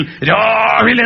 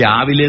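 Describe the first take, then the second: First: രാവിലെ with a long, stretched first vowel; long-held opening on രാവിലെ; early-morning sound. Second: Said in the usual way. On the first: Shown as a demonstration. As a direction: draw out the first syllable of രാവിലെ. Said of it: "ആറ് മണിക്ക് മുമ്പാ". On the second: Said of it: "ആറ് മണിക്കും എട്ട് മണിക്കും പത്ത് മണിക്കും രാവിലെയാ".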